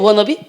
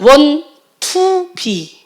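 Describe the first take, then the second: First: The words are run together as one word. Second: Each word is said separately with breaks. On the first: "이걸 연음으로 발음한 것" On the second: "여러분들이 발음하는 원, 투, 비"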